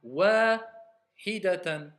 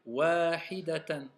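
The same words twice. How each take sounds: First: Wahidatan, slowly, the vowels stretched long; drawn-out long vowel. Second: Wahidatan, slowly, without the extra length; correct short vowels. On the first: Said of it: "j'ai mis un ya". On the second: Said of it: "je vous répète encore une fois". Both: Shown as a demonstration.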